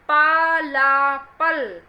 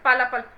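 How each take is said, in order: First: It is slow, with each sound clearly stressed. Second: It is rushed, without stressing the sounds. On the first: The speaker calls it right. "शब्दों पर जोर डालिए, उसकी ध्वनि पर जोर डालिए" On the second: The speaker calls it wrong. "माँ बाप कुछ पेरेंट्स ऐसे भी करते हैं, जल्दी पढ़ो"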